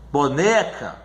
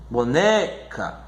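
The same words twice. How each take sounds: First: Said in the usual way. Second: Slow "boneca" with a stretched NE; bo-NEEE, then a separate ca; stress on second-to-last syllable. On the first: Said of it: "é aquela que é a segunda". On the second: Shown as a demonstration. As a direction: draw out the strong NE in "boneca". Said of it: "a sílaba mais forte".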